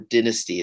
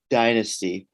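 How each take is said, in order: First: The word has a British pronunciation. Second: The word has an American pronunciation.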